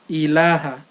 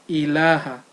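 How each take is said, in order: Both takes have the same delivery.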